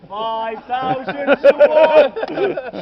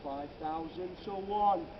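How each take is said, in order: First: Booming slow proclamation. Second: Slow, measured statement of the odds; slow wonder. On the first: Guide to tour group, booming the odds out slowly. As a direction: bellow it out slowly, each word stretched. Repeats odds, much louder, drawn out. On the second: Guide to tour group, slow musing on the odds. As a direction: let the number sink in slowly. First take, slower and quieter. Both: Acted.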